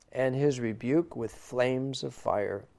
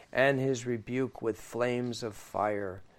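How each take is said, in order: The two takes are said the same way.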